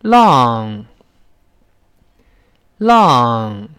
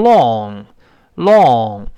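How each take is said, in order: First: "浪" as English long, vowel between lahng and rounded lawng; lower, drawn-out model "浪" with a slightly upright open vowel; corrected long vowel. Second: "long" drawn out with a rounded British o; mimicking students' British "long"; British-style long. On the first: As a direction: stand the vowel of "浪" up a little, between ah and aw. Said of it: "再稍微立起来一点儿". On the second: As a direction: round the vowel of "long", very slow. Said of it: "有的同学把它读成英式发音". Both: Shown as a demonstration.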